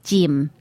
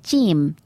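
First: It is said in an imitated Australian accent. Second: The same.

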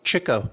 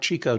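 First: The first syllable sounds like 'chick'. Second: The first syllable does not sound like 'chick'. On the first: The speaker calls it right. "it's Chico ... He was so good at chasing the chicks" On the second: The speaker calls it wrong. "not Chico"

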